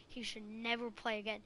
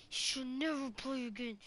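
First: Said in the usual way. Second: "never" pushed a little harder than the rest; stress on never. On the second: Shown as a demonstration. Friend repeats it about the bad player, leaning on never.

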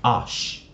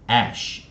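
First: "ash" said as "ahsh", open back vowel; broken-sound "ash". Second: "ash" with the front A as in cat; "ash" vowel shown. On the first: Teacher contrasts the reading that follows W, "ash" as "ahsh". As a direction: model "ash" to rhyme with wash. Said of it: "并不是A S H念". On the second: Teacher explains how A S H reads, front-vowel "ash". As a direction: model "ash" alone after a pause. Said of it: "A S H也可以念". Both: Shown as a demonstration.

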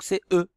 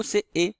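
First: E said as a rounded "eu"; higher-pitched "eu" for E; unaccented e sound. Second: E said as a closed "é"; higher-pitched "é" for E; accented é sound. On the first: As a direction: say "E" as "eu", without accent. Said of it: "il n'y a pas d'accent ici". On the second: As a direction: say "E" as "é", with acute accent. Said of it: "parce qu'il y a l'accent aigu". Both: Shown as a demonstration.

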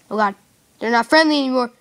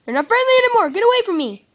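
First: Loud alarmed cry. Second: High panicked shriek. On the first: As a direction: call out in alarm. Zombies turn hostile. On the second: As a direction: shriek in panic, much higher. Panicking as zombies attack. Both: Real, not acted.

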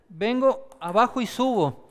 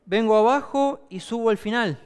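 First: Slow, deliberate walk-through of the stroke; slower demo. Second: Said in the usual way. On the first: Shown as a demonstration. Coach slowing down to show the serve. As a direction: spell out each move slowly for the students. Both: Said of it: "Voy a hacerlo un poco más lento".

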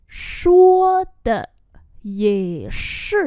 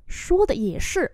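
First: Slow, long syllables, first half louder; teacher's syllable-by-syllable demo; slow model reading. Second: Said in the usual way. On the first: Shown as a demonstration. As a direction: stretch "Shuo de ye shi" out in pieces. Same phrase drawn out for learners.

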